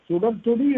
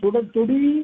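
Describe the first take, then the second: First: The final vowel is short. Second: The final vowel is drawn out long.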